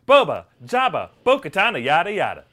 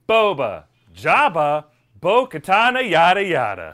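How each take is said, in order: First: It is said a little faster. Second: It is said at a normal pace.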